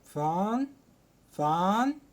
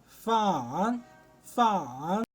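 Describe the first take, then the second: First: It is said with a rising tone. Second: It is said with the third tone. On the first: "تاني واحدة بتطلع صوتك فيها" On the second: "تالت لهجة معانا"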